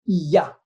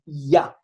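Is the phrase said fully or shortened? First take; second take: shortened; shortened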